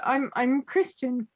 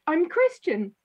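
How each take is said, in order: First: Slow, emphatic "Christian" as a name, not a faith; patiently stressing "Christian"; insisting on Christian. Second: Said in the usual way. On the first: Retold or imitated. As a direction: lean on the name "Christian" to correct her. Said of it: "But it, he said to her". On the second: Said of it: "she thought he meant, "I'm a Christian".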